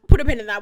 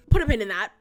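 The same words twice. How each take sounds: First: PIN said louder, with a falling tune; insistent louder repeat of Put a pin in that. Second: Said in the usual way. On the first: Real, not acted. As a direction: call it out the second time, louder. Repeats phrase, second much louder.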